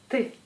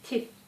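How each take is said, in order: First: The T is hard, not palatalized. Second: The T is soft, palatalized. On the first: "c'est T dur" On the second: "on prononce T douce"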